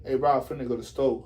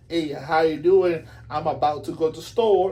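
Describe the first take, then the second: First: Slangy lingo. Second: Proper English. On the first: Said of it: "Or you can say". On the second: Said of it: "You can speak like". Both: Shown as a demonstration.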